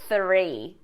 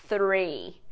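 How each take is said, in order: The two takes are said the same way.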